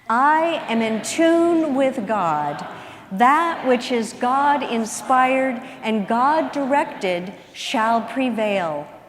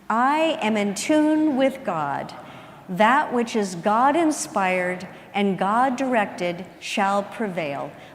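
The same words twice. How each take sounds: First: It is said with lots of energy. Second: It is said calmly, with ordinary energy.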